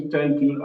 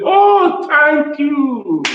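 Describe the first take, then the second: First: Said in the usual way. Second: High, loud grateful exclamation; effusive thanks. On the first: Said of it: "And I also say". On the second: Acted. Acting out a listener thanking whoever encouraged them, high and effusive. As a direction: gush thanks on a drawn-out high pitch. Acts a grateful person's response.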